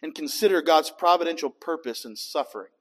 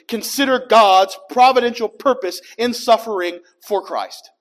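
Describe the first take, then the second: First: It is said at a quicker pace. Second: It is said at a slower pace.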